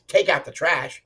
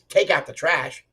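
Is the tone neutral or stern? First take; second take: stern; stern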